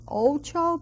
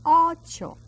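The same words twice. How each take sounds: First: "ocho" with a gliding OH, as OH-choh; mispronounced O. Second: "ocho" with a pure open O, no glide; open throaty O. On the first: Teacher showing students what to avoid, "ocho" said OH-choh. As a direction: say "ocho" with an English "oh" diphthong. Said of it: "that O is not ocho". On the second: Teacher showing the correct vowel, "ocho" with an open O. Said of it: "it comes from down in the throat". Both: Shown as a demonstration.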